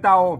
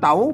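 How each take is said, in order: First: The syllable is said on a low tone. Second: The syllable is said on a rising tone. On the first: "เตาใส่ไม่เอก" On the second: "ใส่ไม่จรวา"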